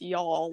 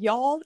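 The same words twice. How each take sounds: First: The vowel sounds like "awl". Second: The vowel does not sound like "awl". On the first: "Like it's A-W-L" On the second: "instead of y'all"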